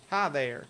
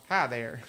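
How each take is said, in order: First: Character greeting voice. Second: Low, loud hi; corrected character voice. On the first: Greeting the hitchhiker in the wrong voice. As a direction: greet her in the hero's other voice. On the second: Redoing the greeting to the hitchhiker in the right voice. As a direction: redo the greeting in the proper voice. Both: Pretend. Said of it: "that wasn't the voice I used".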